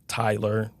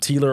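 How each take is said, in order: First: The first vowel sounds like 'tie'. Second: The first vowel sounds like 'tee'. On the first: The speaker calls it right. "Bow tie, Tyler" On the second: The speaker calls it wrong. "I'm Teeler or Tiller"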